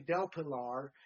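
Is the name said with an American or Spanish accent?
American. The name is said with an American accent. It feels forced to say it this way. "it was harder for me to say Del Pilar"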